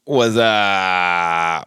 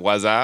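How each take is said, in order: First: Long drawn-out catchphrase holler, sliding downward; early 2000s commercial impersonation. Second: Short, light echo of the ad catchphrase; commercial catchphrase callback. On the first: Guest greeting the podcast host with an old commercial's catchphrase, drawn-out impersonation. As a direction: stretch the greeting out like a silly ad catchphrase. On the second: Guest recalling his good commercial impersonation, brief light echo. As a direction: toss the catchphrase off briefly, only lightly imitated.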